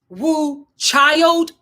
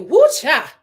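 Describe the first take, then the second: First: The last word ends with a full 'd' sound. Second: The last word drops the final 'd' sound. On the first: The speaker calls it wrong. "We don't say child" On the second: The speaker calls it right. "We say Woo Cha"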